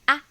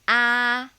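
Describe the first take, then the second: First: The syllable is said in the neutral tone. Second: The syllable is said in the first tone. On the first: "Neutral tone, the easiest" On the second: "Upper tone"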